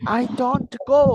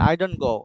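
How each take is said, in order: First: The t in don't is strongly pronounced. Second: The t in don't is soft, nearly silent. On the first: The speaker calls it wrong. "এভাবে যদি বলেন তাহলে আপনার একটু unnatural শোনায়" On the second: The speaker calls it right. "এই টিটাকে একটু একদম সফটলি বলবেন ... এটা ন্যাচারাল শোনাবে"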